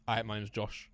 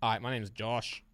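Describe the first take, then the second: First: Lightly voiced impression, low and soft; Josh. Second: Slow, soft accent impression; Tommy T. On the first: Player imitating a friend on request, light low impression. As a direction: introduce yourself in a slightly lowered, subdued put-on voice. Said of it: "do a Josh impression". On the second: Player switching to a second impression on request, slow put-on voice. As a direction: draw the introduction out slowly in a put-on voice. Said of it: "Now do Tommy T". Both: Shown as a demonstration.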